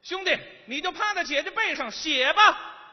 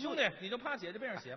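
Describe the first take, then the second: First: It is said at a raised, higher pitch. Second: It is said at a lower pitch.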